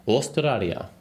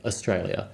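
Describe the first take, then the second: First: Australia said the Japanese way, a touch higher; Japanese-style Australia. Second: Said in the usual way. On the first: Retold or imitated. Answering where he's from, Japanese pronunciation of Australia. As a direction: give Australia Japanese sounds. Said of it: "you know, like, Australia". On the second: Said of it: "you know, like".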